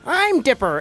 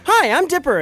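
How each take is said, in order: First: The voice sounds nerdy and nasal. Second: The voice sounds plain and less nerdy.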